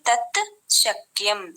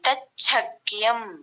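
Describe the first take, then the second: First: The two words are said separately, with plain t-sh. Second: The words merge into one with a doubled ch sound. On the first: "విడదీస్తే" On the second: "కలిపితే తచ్చక్యం ఒత్తుగా పలకాలి"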